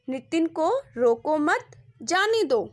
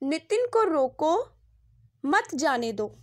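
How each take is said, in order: First: The pause comes right after the word 'मत'. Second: The pause comes right after the word 'रोको'. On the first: The listener is told not to stop the person. "दूसरे वाक्य में नितिन को न रोकने के लिए कहा गया है" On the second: The listener is told to stop the person. "पहले चित्र के नीचे लिखे वाक्य में नितिन को रोकने के लिए कहा गया है"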